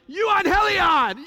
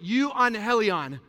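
First: It is said with excitement, like good news. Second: It is said flatly, like bad news.

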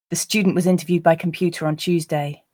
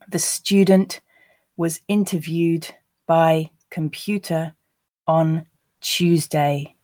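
First: The sentence is said at a natural pace. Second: The sentence is said at a slow pace. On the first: "the second two times at a more natural pace" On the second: "I'll read the first time slowly"

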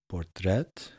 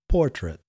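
First: The stress is on the second syllable. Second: The stress is on the first syllable. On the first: The speaker calls it wrong. "in Dutch we say portret, with so we emphasize the second syllable" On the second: The speaker calls it right. "yesterday I should have said portrait"

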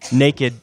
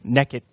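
First: It is said in a standard accent. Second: It is said in an East Texas accent.

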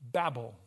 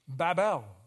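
First: The word has a common English pronunciation. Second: The word has a Hebrew-style pronunciation. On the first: The speaker calls it wrong. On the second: The speaker calls it right.

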